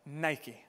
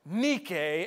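First: The word is said with its English pronunciation. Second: The word is said with its Greek pronunciation. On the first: This is the familiar brand name. "but we pronounce it Nike" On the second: This is the original Greek word. "as it is in the Greek"

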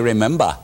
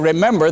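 First: It is said in a New England accent. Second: It is said in the speaker's own accent.

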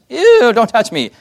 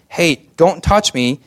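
First: It is said in a prissy, disgusted tone. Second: It is said in a gentle, warm tone.

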